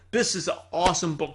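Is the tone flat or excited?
excited. It is said with lively enthusiasm.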